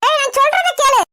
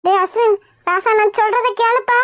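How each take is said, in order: First: Raised, higher-pitched order to listen; urgent scolding demand. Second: Softened appeal after the shouting; coaxing plea. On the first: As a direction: break in and make your son hear you. Mother tries to stop son. (அதட்டலாகச் சொல்லுதல்) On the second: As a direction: coax your angry son to listen. Mother coaxes son after shouting. (கெஞ்சலாகச் சொல்லுதல்) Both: Acted.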